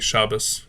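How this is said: It is said with an Ashkenazi pronunciation.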